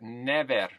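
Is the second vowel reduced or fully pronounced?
fully pronounced. The second vowel is a full eh. "But in Colombia, we get never. The E gets its due"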